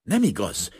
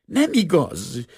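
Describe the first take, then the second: First: Understated outcry, a little higher; crying out. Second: High, loud, drawn-out shriek of denial; shrieked protest. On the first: Assistant denies the officer's claim, a mild outcry. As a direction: cry out in protest, voice only modestly raised. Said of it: "kiáltott föl a szemüveges leány". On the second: Assistant denies the forced confession, shrieking. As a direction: shriek it slowly, pitched far up. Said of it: "sikoltotta a szemüveges lány". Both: A narrator's reading.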